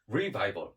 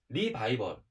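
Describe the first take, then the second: First: It is said English-style with a strong R sound. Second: It is said with Korean-style syllables, no rolled R. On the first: The speaker calls it right. "영어식으로 발음할게요. 좀 굴릴게요. R자 발음 살려서" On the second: The speaker calls it wrong. "너무 한국식으로 발음했어요"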